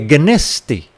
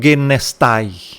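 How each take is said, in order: First: The word ends with a plain 'e' vowel. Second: The word ends with an 'ai' diphthong. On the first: The speaker calls it right. "É geneste" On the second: The speaker calls it wrong. "e não genestai"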